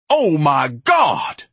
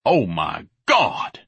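First: Drawn-out high, loud bellow; exasperated roar, very slow. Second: Slow, slobbery dismay; drawn-out, appalled groan of words; slobbering. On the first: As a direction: bellow it in outrage, stretching each word. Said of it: "Ignatius bellowed". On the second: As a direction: slobber it out slowly, aghast. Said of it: "Ignatius slobbered". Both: Acted.

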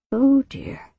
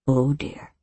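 First: High, rising worried "Oh dear". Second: Low, soft sinking "Oh dear"; low worried. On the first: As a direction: lift it up in alarm. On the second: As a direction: let it drop, dismayed. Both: Acted. Repeated worried exclamation.

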